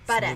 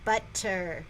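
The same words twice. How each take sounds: First: The word is said in a Boston accent. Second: The word is said in a plain accent. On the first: "have a Boston accent when you say that?" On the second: "instead of butter"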